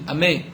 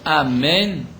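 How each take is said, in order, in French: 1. Le son final n n'est pas prononcé. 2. Le mot entier est prononcé avec tous les sons.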